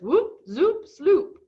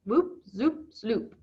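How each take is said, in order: First: High, loud, bouncy whoop zoop sloop; playful, rising "Whoop, zoop, sloop"; gleeful silly sound words. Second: Savoring the sound. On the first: Retold or imitated. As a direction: sing out "Whoop, zoop, sloop" with delight, rising on each word. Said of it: "the way he talks that cracks me up". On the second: Shown as a demonstration. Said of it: "I just love the way that sounds".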